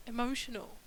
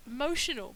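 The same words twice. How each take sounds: First: Said in the usual way. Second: "emotional" said as motional, the first vowel swallowed; wordplay on emotional. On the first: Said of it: "but it's not". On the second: Shown as a demonstration. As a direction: stress the MO of "emotional", dropping the opening E. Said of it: "I mean, it is".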